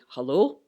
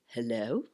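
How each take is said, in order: First: It is said in a relaxed, everyday voice. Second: It is said in an exaggerated, posh voice. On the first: This is how the speaker normally talks. "I might normally say hello" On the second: This is a more formal style for the telephone. "on the phone I might say hello. Um, that's my telephone voice"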